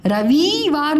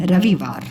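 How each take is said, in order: First: रविवार with vee drawn long; गलत लंबी ई. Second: रविवार with quick vi, lower; सही छोटी इ. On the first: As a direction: stretch वि in रविवार. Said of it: "रविवार नहीं". (रविवार को रवीवार जैसा) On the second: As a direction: keep वि short in रविवार. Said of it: "छोटी की मात्रा को उच्चारण". (रविवार में वि छोटा) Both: Shown as a demonstration.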